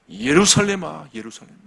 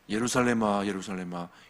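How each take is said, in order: First: It is said with deep, sorrowful feeling. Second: It is read flatly, without feeling.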